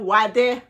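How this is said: It is said with a Haitian Creole accent.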